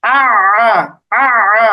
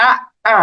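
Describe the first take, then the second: First: আ squeezed from the middle of the throat; doubled Arabic ayn on আ. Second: Short stopped আ, then a second আ; আ with a clean glottal catch; plain hamza আ, not from mid-throat; doubled hamza. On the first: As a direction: draw আ out through a tightened throat. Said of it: "এরকম গলার মাঝখানে নিতে হবে আইনেরটা". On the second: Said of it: "আগেরটা যদি জবর দিয়ে আমরা পড়ি". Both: Shown as a demonstration.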